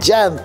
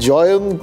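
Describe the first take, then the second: First: The name begins with a 'Jya' sound. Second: The name begins with a 'Joy' sound. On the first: "ওই জ্যান্ত এরকম করে উচ্চারণ করলে ব্যাপারটা জমজমাট হয়" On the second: "জয়ন্ত Singh বলবো"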